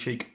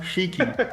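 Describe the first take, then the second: First: The name ends without any final vowel sound. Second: The name ends with a pronounced final vowel. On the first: The speaker calls it wrong. "Without the e on the end" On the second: The speaker calls it right. "I know I'm going to get this right"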